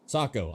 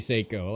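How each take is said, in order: First: The first syllable sounds like 'sah'. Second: The first syllable sounds like 'say'. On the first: The speaker calls it right. "I'm saying it right" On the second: The speaker calls it wrong. "Most Americans say Seiko"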